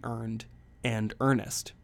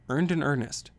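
First: Said in the usual way. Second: Playful stress on "Earned" and "earnest"; stressed wordplay. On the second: Shown as a demonstration. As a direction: land "Earned" and "earnest" as a pair of matching E words.

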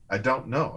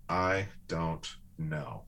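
First: Said in the usual way. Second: "I don't know" said slowly and softly, drawn out and lower; slow, soft admission. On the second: Shown as a demonstration. Showing the words he learned to say, slow soft I don't know. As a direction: let "I don't know" sink in gently. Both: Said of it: "learning to say these words".

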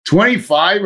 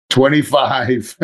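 First: Twenty-five? pitched high with a disbelieving rise; can't believe the increment went down again; high, rising Twenty-five? in amused disbelief; incredulous. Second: Said in the usual way. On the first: Retold or imitated. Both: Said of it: "Are you kidding me?".

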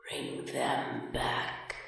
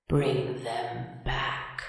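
First: Slow, breathless ghostly whisper; hoarse empty whisper. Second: Slow, soft, empty voice rising at the end; a drawn-out hollow plea from the grave; hoarse hollow voice. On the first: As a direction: rasp it out like a dead captain. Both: A narrator's reading. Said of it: "hoarse and empty now".

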